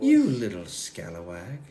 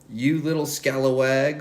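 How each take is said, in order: First: It is said in a scary goddess voice. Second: It is read in a plain narrating voice.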